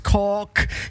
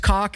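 First: The word is said in a put-on British accent. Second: The word is said in a plain accent. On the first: "as cock" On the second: "he pronounces cock"

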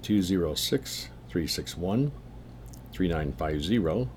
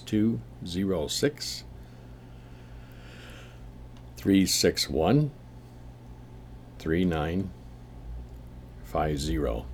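First: The number is read at a quicker pace. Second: The number is read at a slower pace.

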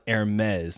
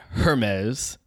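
First: The word starts without an h sound. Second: The word starts with an h sound. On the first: The speaker calls it right. "it is pronounced Hermes" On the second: The speaker calls it wrong. "not Hermes. There's no huh there"

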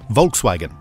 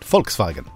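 First: The name is said with English pronunciation. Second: The name is said with German pronunciation. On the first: This is the version listeners expect. "But I need to say" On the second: This is the authentic version. "I did German in school, so I call it"

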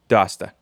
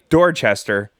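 First: It is shortened to two syllables, without r sounds. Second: Every syllable is pronounced, with its r sounds. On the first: "but they call it Dasta" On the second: "So this is clearly Dorchester"

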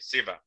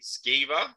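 First: The name begins with a plain 's' sound. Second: The name begins with an 'sk' sound. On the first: The speaker calls it right. "So the C silent" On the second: The speaker calls it wrong. "how do I pronounce this again?"

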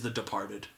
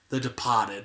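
First: It is said in the speaker's ordinary accent. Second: It is said in a put-on Boston accent.

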